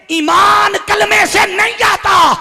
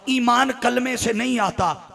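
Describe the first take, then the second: First: High, slow, very loud shout; thundering declaration. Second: Said in the usual way. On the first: Real, not acted. Preacher declaring his main point to the congregation, thundering. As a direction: stretch it out at full preaching force.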